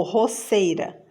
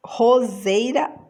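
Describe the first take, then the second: First: "roceira" with a hissed S in place of Z; S sound. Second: Said in the usual way. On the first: Shown as a demonstration. Teacher offering the wrong option, "roceira" with voiceless S. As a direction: say "roceira" as ro-SSEI-ra. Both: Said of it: "quero som de Z".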